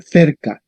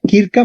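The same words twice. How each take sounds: First: "cerca" with a "th" at the start; Spanish soft C. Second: "Kirka" with a hard k first; Latin hard C. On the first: Teacher derives Spanish from Latin, soft-C cerca. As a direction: say "cerca" the Castilian way, th-er-ka. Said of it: "cerca en español". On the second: Teacher derives Spanish from Latin, hard-C Kirka. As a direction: say "Kirka", k not th. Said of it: "va a dar cerca". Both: Shown as a demonstration.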